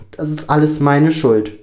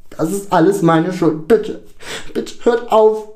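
First: Louder, higher anguished confession; distressed self-blame. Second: High, loud anguished plea; hysterical screaming. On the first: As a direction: blame yourself, upset but still speaking. Lukas blames himself, tears falling. (aufgewühlte Selbstanklage) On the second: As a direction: cry out in guilt, out of control. (außer sich schreiend) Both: A narrator's reading.

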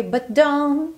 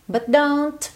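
First: Higher "But don't" with the last T unreleased; barely-there final T. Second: Higher "But don't" ending on an audible T; released final T. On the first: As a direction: swallow the T at the end of "don't". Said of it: "quase nada". ("don't" quase sem o T final) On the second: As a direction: let the T click at the end of "don't". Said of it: "Se você quiser fazer esse t". ("don't" com o T final pronunciado) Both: Shown as a demonstration.

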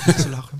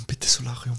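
First: Said in the usual way. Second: Breathy whispered bitte Solarium; whispered plea. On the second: Acted. Repeated plea, one whispered.

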